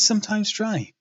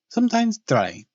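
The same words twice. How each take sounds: First: It is said without a Transylvanian accent. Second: It is said with a Transylvanian accent.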